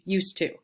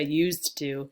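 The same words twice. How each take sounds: First: The D sound at the end of used is dropped. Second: The D sound at the end of used is pronounced. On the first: "you usually hear used to" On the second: "we don't say used to, because the T is right there with the two"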